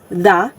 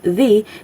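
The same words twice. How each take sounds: First: The vowel is short and reduced, like 'thuh'. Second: The vowel is long and high, like 'thee'. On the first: The next word starts with a consonant. "if it's followed by a consonant word" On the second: The next word starts with a vowel. "if it follows with a vowel word"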